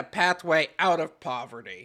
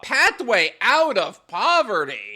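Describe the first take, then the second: First: Said in the usual way. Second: Slow, scornful repeat of the quote; incredulous echo. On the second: Real, not acted. Host challenging the article's pathway claim, incredulous. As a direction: throw the phrase back in disbelief.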